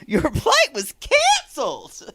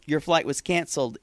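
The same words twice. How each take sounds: First: High, mock-cheerful exclamation with a laugh; slow it down and hammer the exclamation mark. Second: Said in the usual way. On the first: Reading out Maria's message with its exclamation mark, mock excitement. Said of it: "exclamation mark". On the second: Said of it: "is after the, your flight was canceled".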